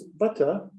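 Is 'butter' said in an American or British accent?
British. It ends without an r sound. "if you're in England, it's butter, and they don't pronounce the E R in the end"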